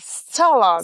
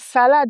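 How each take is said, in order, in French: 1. Il est prononcé avec un accent anglais. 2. Il est prononcé avec un accent français. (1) "c'est euh, salad" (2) "c'est pas salade"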